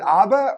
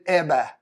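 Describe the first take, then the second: First: The first vowel sounds like 'ah'. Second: The first vowel sounds like 'eh'. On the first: This is how Americans say the name. "A H is ah" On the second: This is how New Zealanders say the name. "E H would be eh"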